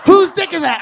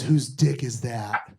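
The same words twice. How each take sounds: First: Shouted, much higher and louder; exasperated shout. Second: Slow, lower, drawn-out question; slowly drawn out, low and puzzled; wife's question. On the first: Husband yelling back at wife's question, exasperated shout. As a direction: yell it back, fed up. Retorting to her repeated question. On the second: Wife asking mid-sex, slow low puzzled question. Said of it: "and then she goes". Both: Retold or imitated.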